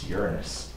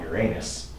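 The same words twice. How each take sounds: First: The stress is on the first syllable. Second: The stress is on the second syllable. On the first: It names the planet. The speaker calls it right. "It's Uranus" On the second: It sounds like a rude body-part joke. The speaker calls it wrong. "It is not Uranus"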